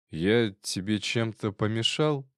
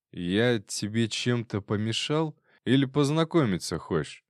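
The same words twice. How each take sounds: First: Put-on slurred drunk speech. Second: Frat bro. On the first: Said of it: "заплетающимся языком произнёс Козловский". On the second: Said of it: "заплетающимся языком". (нахальный пьяный тон, медленно) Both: A narrator's reading.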